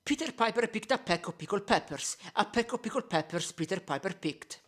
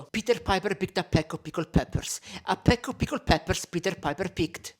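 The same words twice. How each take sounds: First: Tongue twister with softened plosives through a pop filter. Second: Tongue twister with popping plosives on an unfiltered mic; bare microphone. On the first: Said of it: "Now one with a regular pop filter". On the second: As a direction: say it into a bare mic, letting the P's pop. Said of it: "first one without anything, so bare microphone". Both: Shown as a demonstration.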